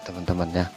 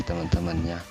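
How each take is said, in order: Both takes have the same delivery.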